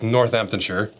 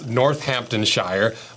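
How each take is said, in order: First: The place name is said with English pronunciation. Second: The place name is said with American pronunciation. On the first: The speaker calls it right. "the correct pronunciation is" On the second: The speaker calls it wrong. "what I would pronounce"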